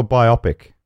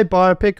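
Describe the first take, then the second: First: "biopic" as by-OP-ick, rhyming with myopic; stress on OP. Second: "biopic" as BY-oh-pick, stress on the first syllable. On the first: Host offers co-host the other way, "biopic" as by-OP-ick. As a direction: hit the middle syllable of "biopic": by-OP-ick. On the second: Host asks co-host which way he says it, "biopic" as BY-oh-pick. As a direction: say "biopic" as bio plus pic. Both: Shown as a demonstration. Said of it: "Do you say biopic or biopic".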